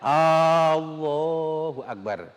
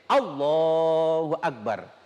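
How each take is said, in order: First: The opening vowel is drawn out long. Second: The opening vowel is short. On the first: The speaker calls it wrong. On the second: The speaker calls it right. "harus pendek"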